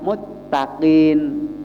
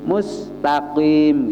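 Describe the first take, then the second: First: The s is replaced by a doubled t sound. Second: The word is said with a clear s sound. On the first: "sinnya diganti ta, diidghamkan" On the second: "seperti bacaan mustaqim"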